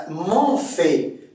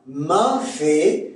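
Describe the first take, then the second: First: Said in the usual way. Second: "M'ont fait" with open nasal, man fait; Québécois nasal vowel. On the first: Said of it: "Le on". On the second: Shown as a demonstration. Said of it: "c'est un".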